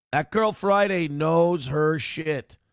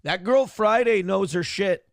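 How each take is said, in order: First: Put-on "That Girl Friday knows her shit" said slowly, every word weighted; slow it down and lean on "Girl Friday"; a deliberate, slowed-down second take for emphasis; slow emphatic repeat. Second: Said in the usual way. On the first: Shown as a demonstration.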